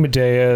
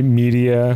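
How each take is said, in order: First: Said in the usual way. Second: "Medea" said as "media", first syllable stressed; mispronounced "Medea". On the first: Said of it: "pronouncing Medea as me-, media". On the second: Shown as a demonstration. Host shows the guide's mistake, "Medea" mispronounced as "media". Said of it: "pronouncing Medea as me".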